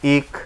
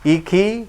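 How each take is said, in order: First: The word ends on a bare consonant. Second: The word ends with its final vowel sounded. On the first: The reader stops at this word. "এটাই আরজি সাকিন, জেরে থামিলে সাকিন ধরে পড়তে হয়" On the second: The reader continues without stopping. "জেরে না থামিলে যেমন আছে তেমন করে পড়তে হয়"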